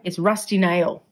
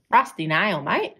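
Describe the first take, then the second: First: Said in the usual way. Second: A broad Australian "Rusty Nail, mate" in jest; mock Australian accent. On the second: Shown as a demonstration. Joking about her own accent, ham up Australian accent. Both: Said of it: "I hate the Australian accent".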